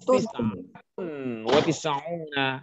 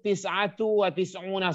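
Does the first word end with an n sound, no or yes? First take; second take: yes; no. First: The first word ends with an added n sound. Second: The first word ends in a bare vowel. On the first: The speaker calls it right. "Harus tis'atun wa tis'una isman" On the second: The speaker calls it wrong. "Tidak boleh membacanya lillahi tis'atu wa tis'una, salah"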